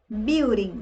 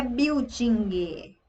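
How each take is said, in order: First: "Building" said English, bil-ding; correct building. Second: "building" said biw-jee-gee, with added vowels; Brazilian-style "building" with an extra i, slow. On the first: Teacher modelling correct "Building" for students. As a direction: clean English "Building", ending on ng. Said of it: "não é building". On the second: Teacher imitating the Brazilian "building". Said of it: "não é". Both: Shown as a demonstration.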